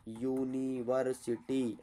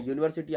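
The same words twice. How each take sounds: First: यूनिवर्सिटी drawn out slowly, syllable by syllable, low and soft; quiet, slow teaching demo of यूनिवर्सिटी, each syllable stretched; syllable-by-syllable pronunciation. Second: Said in the usual way. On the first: Shown as a demonstration. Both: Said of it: "अब इसका तुम उच्चारण करो".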